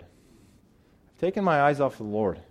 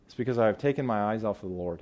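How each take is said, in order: First: Slow second take, "my" leaned on; slow repeat, stress on my. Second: Said in the usual way. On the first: Shown as a demonstration. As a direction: say it again slower and weigh "my".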